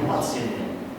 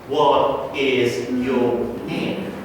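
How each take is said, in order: First: The unstressed words are reduced and joined together. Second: Every syllable is pronounced fully and separately. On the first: The speaker calls it right. "But in English, we don't use that system. That's why we say" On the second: The speaker calls it wrong. "if that sentence were Spanish, we could say that"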